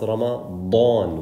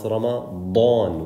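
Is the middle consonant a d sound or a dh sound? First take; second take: d sound; d sound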